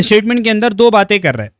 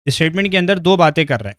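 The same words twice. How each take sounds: First: First time with punch on दो; emphatic. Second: Said in the usual way. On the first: Shown as a demonstration. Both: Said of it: "repeats the line".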